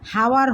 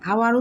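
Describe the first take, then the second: First: The word starts with an audible h sound. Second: The word starts with a vowel, no h sound. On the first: The speaker calls it wrong. "হাওয়ার হচ্ছে না" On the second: The speaker calls it right. "আওয়ার উচ্চারণ হচ্ছে"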